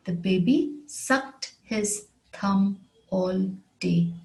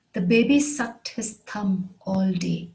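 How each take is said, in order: First: Slow, word by word with small gaps; measured teacher's repeat, pausing between words; slow model sentence. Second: Said in the usual way. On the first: Shown as a demonstration. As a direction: spell it out slowly for learners, word after word. Example repeated slowly for learners.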